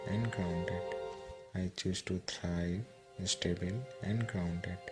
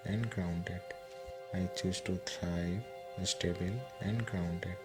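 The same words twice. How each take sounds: The two takes are said the same way.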